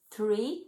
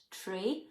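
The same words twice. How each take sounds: First: "three" with a clear th at the start; "three" said the English way, th then ree; correct pronunciation. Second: "tree" with a plain t and no th sound; "tree" in an Irish accent, softer; Irish pronunciation. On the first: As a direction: say "three" with the tongue between the teeth, not "tree". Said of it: "if you're not from Ireland, the word is". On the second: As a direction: say "tree" the Irish way, a hard t in place of th. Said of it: "not tree". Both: Shown as a demonstration.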